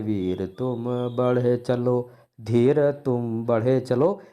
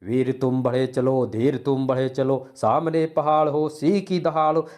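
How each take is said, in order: First: Slow, dragged-out verse; lifeless wrong reading. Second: Brisk, rousing heroic recital; enthusiastic correct reading. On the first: Teacher showing how not to read heroic verse, dragging it. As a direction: drag each word with no enthusiasm. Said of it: "ऐसे नहीं पढ़ना है". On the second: Teacher showing the right way to read it, spirited. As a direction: recite it with marching zeal, building as it goes. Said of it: "इस कविता को कैसे पढ़ेंगे?". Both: Shown as a demonstration.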